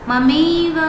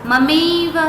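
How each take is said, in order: The two takes are said the same way.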